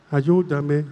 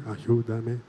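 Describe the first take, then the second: First: Said in the usual way. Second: Lower, softer ayúdame; hushed echo. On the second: Shown as a demonstration. Priest gives the soft response for the girl. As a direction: echo it back gently. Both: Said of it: "Otra vez, vamos".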